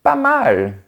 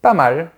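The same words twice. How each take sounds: First: It sounds pleased and clearly approving. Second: It sounds lukewarm and only mildly approving. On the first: It is good. "ça signifie que c'est bien" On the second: It is okay but could be better. "ça veut dire « il y a mieux, mais ça va »"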